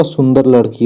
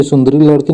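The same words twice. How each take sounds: First: सुंदर लड़की with no "ee" after सुंदर; correct form. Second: सुंदरी लड़की with a final "ee" on सुंदरी; wrong form. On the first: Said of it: "सुंदर लड़की होगा". (सुंदर लड़की में 'सुंदर' को 'र' पर खत्म करें) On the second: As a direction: say सुंदरी लड़की as sun-da-ree. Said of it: "सुंदरी लड़की नहीं होगा". (सुंदरी लड़की में 'री' साफ़ बोलें) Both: Shown as a demonstration.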